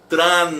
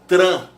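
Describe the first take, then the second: First: A distinct N consonant closes the syllable. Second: The vowel is nasal with no N consonant. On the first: "com som do N no final" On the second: "bem nasal"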